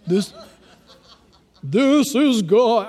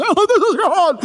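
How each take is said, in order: First: Slow, drawn-out pretend God voice; mock voice of God. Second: High, loud, wavering parody voice; TV-show God. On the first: Preacher jokingly imitating God for the congregation, mock-grand. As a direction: play God with every word stretched. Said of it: "I don't think God talks like that". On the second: Pretend. Preacher spoofing how TV shows portray God, hammed-up. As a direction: ham it up as a television God. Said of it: "those T V shows make us".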